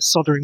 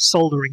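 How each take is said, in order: First: It is said the American way, without an L. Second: It is said the British way, with an L.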